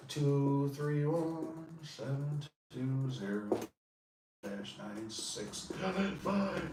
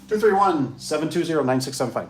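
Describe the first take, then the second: First: Very slow, soft, spelled-out digits; slow number dictation. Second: Said in the usual way. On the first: Shown as a demonstration. Dictating his number to Tony, slow and soft. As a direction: read each digit slowly for the viewer.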